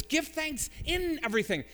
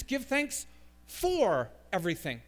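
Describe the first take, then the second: First: High-pitched emphasis on "in"; insistent, raised voice landing on "in"; stress on IN. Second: "for" held long and pushed out; emphatic "for", marking it as the wrong word; stress on FOR. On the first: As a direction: punch "in" before "everything". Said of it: "What's the preposition in our text?". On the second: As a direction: lean hard on "for" before "everything". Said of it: "It is not, definitively not". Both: Shown as a demonstration.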